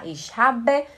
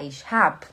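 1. O verbo termina com o som de e final. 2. O verbo termina sem o som de e final.

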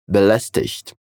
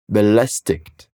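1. O final tem um som suave de chiado, como 'ch'. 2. O final tem um som forte de k. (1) "O sotaque do Hochdeutsch é belästigt, com esse som chiado, como se fosse um som de CH na palavra ich" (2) "eles pronunciam o som do IG como IK"

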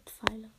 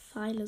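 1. Das Wort beginnt mit einem pf-Laut. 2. Das Wort beginnt mit einem einfachen f-Laut. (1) "sondern Pfeile. ... mit PF" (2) "es heißt nicht Pfeile"

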